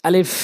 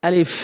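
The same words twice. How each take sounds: Both takes have the same delivery.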